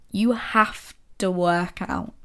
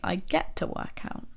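First: Slow, dragging "have to work out" said as a chore; heavy reluctant sigh of a line; grudging. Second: Softer, almost whispered "get to", rising at the end; gentle, grateful hush; soft and glad. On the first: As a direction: drag it out like something you dread. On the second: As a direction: say it like a small gift to yourself. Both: Shown as a demonstration. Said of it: "The emotion behind these things is so different".

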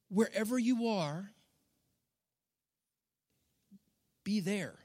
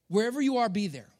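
First: Soft Jesus quote. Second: Said in the usual way. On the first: Retold or imitated. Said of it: "Maybe he would say". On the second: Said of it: "restating the line".

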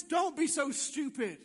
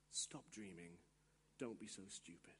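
First: Forceful, emphatic scolding; loud put-down. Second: Very low, very soft dismissal; hushed put-down. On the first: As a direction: shout down the dreamer. Lie scolds the would-be witness. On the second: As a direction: murmur the discouragement under your breath. Inner lie dismisses the dreamer. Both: Acted.

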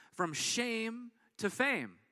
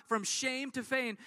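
First: Slow, deliberate title read. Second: Said in the usual way. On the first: Shown as a demonstration. Pastor announcing the sermon title slowly. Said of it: "and it's titled this". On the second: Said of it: "Pretty simple, but yet profound".

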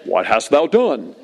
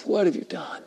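First: Slow, lightly mock-grand voice of God; a hint of solemn, stately pronouncement; James Earl Jones. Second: Very soft, grieving question; compassionate. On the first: God to Cain as people imagine it, slow mock solemnity. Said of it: "sound like James Earl Jones". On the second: Jesus to us in his mercy, hushed compassion. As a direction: ask it gently after a sigh. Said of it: "great compassion and mercy". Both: Shown as a demonstration.

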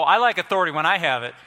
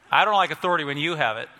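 First: I punched in "when I have it"; stress on I. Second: YOU picked out in "when you have it"; stress on YOU. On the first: Preacher owning up to liking authority, stress on I. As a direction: lean on "I" against "you". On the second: Preacher objecting to someone else's authority, stress on you. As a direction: lean on "you" against "I". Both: Shown as a demonstration. Contrasts own authority with another's.

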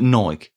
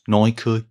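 First: "Nike" as one syllable, rhyming with bike; one-beat "Nike", ending on the k; everyday pronunciation. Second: "Nike" as two syllables, NY-kee; two-beat "Nike", rhyming with spiky; corrected pronunciation. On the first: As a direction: say "Nike" with a silent e. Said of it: "Nike is pronounced Nike". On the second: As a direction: say "Nike" with a sounded final ee. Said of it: "is pronounced Nike". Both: Shown as a demonstration.

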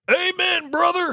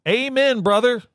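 First: Higher, bigger wrestler shout; wrestler catchphrase. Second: Hammed-up wrestler growl; wrestler catchphrase. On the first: Retold or imitated. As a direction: pro wrestler promo yell. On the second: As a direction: pro wrestler promo voice. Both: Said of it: "What wrestler says that?".

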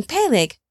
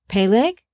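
First: "Peleg" as a higher, falling statement; identifying himself. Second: "Peleg" echoed with a rising question tune; questioning repeat. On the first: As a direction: say "Peleg" pitched up then dropping, as a firm answer. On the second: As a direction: repeat "Peleg" as a puzzled question, lifting at the end. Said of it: "Father Shem repeated". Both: A narrator's reading.

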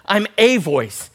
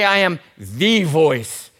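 First: "a" stretched into a firm AY; slow line, punching "a" as AY; stress on A. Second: "the" drawn out slowly as THEE; slow, weighty THEE before voice; stress on THE. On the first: Preacher quoting what John really says, stress on A. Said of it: "He doesn't even use a definite article". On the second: Preacher voicing what John doesn't say, stress on THE. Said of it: "doesn't even use a definite article". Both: Shown as a demonstration.

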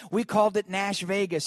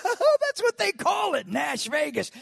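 First: Said in the usual way. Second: Excited. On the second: Retold or imitated.

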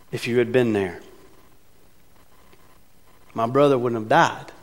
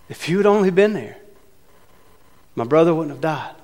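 First: Said in the usual way. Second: Frustrated Martha. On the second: Shown as a demonstration. Martha reproaching Jesus over her brother, frustrated. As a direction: reread it with hurt frustration. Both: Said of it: "Frustrated, uncertain about what's going on".

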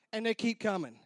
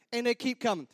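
Both takes have the same delivery.

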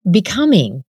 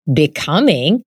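First: "becoming" said with a falling, final tune. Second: "Becoming?" with a rising, doubtful question tune; questioning rise. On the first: Suja repeating what others say, "becoming" falling. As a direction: let "becoming" drop down and end. Suja's worried statement. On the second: Jin echoing her word in disbelief, "Becoming?" rising. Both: A narrator's reading.

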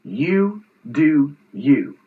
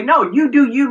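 First: Slow, spaced-out dismissal, quoting her; retold brush-off, each word drawn out; dismissive brush-off. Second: Higher, quicker, easygoing version of the phrase; well-meant version. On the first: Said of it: "the final piece of this was she said". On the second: Retold or imitated. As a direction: offer it as harmless permission. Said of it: "meaning, okay, do what you need to do".

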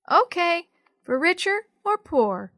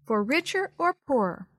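First: Put-on high, loud little-girl voice; little sister. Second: Said in the usual way. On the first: A narrator's reading. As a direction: chirp it back like a small child. Little sister repeats the vow.

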